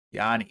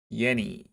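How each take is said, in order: First: Yanni said with an open "ah", as /jɑni/; Yanni, the vowel like "father"; misreading Yanni the ah way; first try at the name. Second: Yenny said with a short "eh", as /jɛni/; Yenny, the vowel as in "yes"; correcting to Yenny, short eh; corrected name. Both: Shown as a demonstration.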